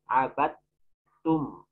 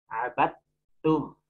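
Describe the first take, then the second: No difference in how they are said.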